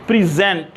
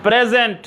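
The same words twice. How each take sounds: First: प्रेजेंट said as "priZENT", lower, the verb; present as verb. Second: प्रेजेंट said as "PREzent", with a falling tune; present as gift. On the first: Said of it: "किसी चीज़ को पेश करना". (प्रेजेंट, पेश करने वाला उच्चारण) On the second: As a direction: stress the first part, the gift word. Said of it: "नीचे लिखा है ना गिफ्ट". (प्रेजेंट, पहले हिस्से पर ज़ोर) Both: Shown as a demonstration.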